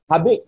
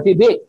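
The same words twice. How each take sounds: First: "Habik" with an "a" in the first syllable; mispronounced hibik. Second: "hibik" with an "i" in both syllables; corrected hibik. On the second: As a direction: say "hibik", first vowel as "ee". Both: Real, not acted. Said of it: "I'm sorry".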